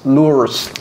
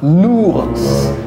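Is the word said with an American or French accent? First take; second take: American; French. First: It is said with an American accent. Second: It is said with a native French accent. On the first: The speaker calls it wrong. "elle ne peut pas le dire. Elle va dire l'ours" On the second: The speaker calls it right. "Et vous voyez"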